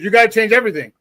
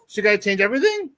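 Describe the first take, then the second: First: It falls at the end like a statement. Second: It rises at the end like a question.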